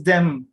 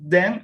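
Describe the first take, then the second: First: Them ending with closed lips on M. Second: Then ending on an open N. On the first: Teacher modelling them with final M for the class. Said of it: "and this is them". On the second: Teacher modelling then with final N for the students. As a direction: say then, end with the mouth open on N. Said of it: "So that's why we say then". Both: Shown as a demonstration.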